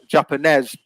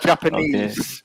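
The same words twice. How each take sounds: First: The final vowel sound is short. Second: The final vowel sound is long. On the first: The speaker calls it wrong. "you said um" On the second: The speaker calls it right. "it's a long a long vowel sound at the end"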